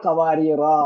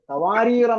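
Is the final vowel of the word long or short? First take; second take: long; short. First: The final vowel is held long. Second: The final vowel is cut short. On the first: The word ends the phrase. "നിർത്തുമ്പോൾ ഖവാരീറ" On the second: The word runs on into the next word. "ചേർത്ത് വായിക്കുമ്പോൾ നീട്ടില്ല"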